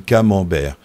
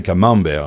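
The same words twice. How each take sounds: First: "Camembert" with the weight on its ending "bert"; end-stressed "Camembert"; stress on final syllable. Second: "camembert" stressed on the middle syllable "mem", last one falling away; Italian-style stress. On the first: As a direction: say "Camembert" leaning on the last syllable. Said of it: "ça termine sur ber". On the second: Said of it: "mais si on le disait". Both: Shown as a demonstration.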